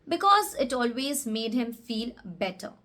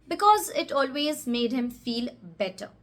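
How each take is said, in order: No difference in how they are said.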